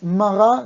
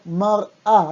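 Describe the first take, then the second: First: Mar'a said smoothly as one word, mara, with no break; the mistaken mar'a, no pause in the middle; wrong version. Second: Mar'a with a small catch and pause between mar and a; careful teacher's mar'a, slightly slow, with the glottal pause; correct version. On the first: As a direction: run mar'a together without a stop. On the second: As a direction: break mar'a in two: mar, stop, a. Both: Shown as a demonstration. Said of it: "Hay que hacer una pausa".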